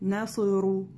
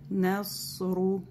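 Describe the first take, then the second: First: The s sound is cut short. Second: The s sound is held long. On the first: The speaker calls it wrong. "Не говорим насру. Это коротко" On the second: The speaker calls it right. "И время сад даем тоже, не сокращаем"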